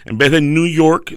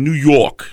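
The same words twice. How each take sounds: First: Said in the usual way. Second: New York said with a thick New York accent, dropping the r. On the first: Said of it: "habla con un acento". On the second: Shown as a demonstration. A New York accent as he shows how they say New York. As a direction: say New York like a born New Yorker. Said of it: "En vez de New York, dicen".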